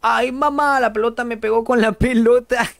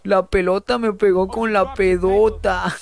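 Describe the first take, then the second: First: A hint of whiny crying Kiko, higher; mock whimpering child voice, lightly done; imitating Kiko crying. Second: Repeating Kiko's line through laughter; laughing quote. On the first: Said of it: "Kiko llorando". (imitación ligera de Kiko llorando, más aguda) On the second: Retold or imitated. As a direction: giggle while mocking the line. (citando a Kiko entre risas)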